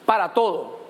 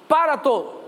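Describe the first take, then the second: First: Said in the usual way. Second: \"Para todo\" said again with a push on \"Para\"; emphatic repeat. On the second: Shown as a demonstration. Preacher repeats \"Para todo\" to the congregation with a push on \"Para\".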